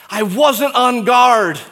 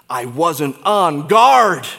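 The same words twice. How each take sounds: First: Louder, higher, slow anguished cry; high, pained second plea; anguished repeat. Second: Mild regret. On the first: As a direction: let the regret break out. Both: Pretend. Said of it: "say to us by way of explanation".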